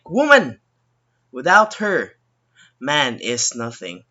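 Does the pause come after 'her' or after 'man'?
her. The pause comes after the word her. "But in the second sentence, it would sound like"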